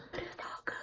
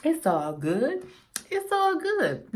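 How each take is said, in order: First: Breathy whispered line. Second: Slow drawn-out quote; movie quote. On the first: Quoting a movie line to herself in a whisper. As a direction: whisper it to yourself. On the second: Quoting a film to viewers, slow and drawn out. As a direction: drag out the movie line. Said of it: "Nobody know what movie that's from". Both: Pretend.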